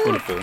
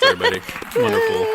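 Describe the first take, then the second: First: Said in the usual way. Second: Wonderful said through laughter, high; laughing delighted Wonderful. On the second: Real, not acted. Laughing praise after reading.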